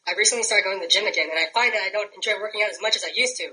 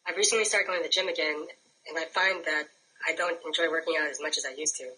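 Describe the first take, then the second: First: It is said angrily, ready to punch something. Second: It is said calmly and peacefully.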